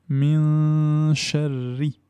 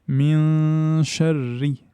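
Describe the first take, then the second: First: The n is hidden, leaving only nasal sound. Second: The same.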